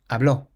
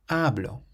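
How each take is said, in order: First: The stress is on the last syllable. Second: The stress is on the first syllable. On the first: He spoke. "has an accent on the O" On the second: I speak. "the emphasis is placed on the syllable before last"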